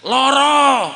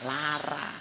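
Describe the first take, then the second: First: It has o vowels, Jogja style. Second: It has a vowels, Ngapak style.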